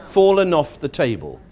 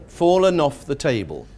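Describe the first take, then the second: The two takes are said the same way.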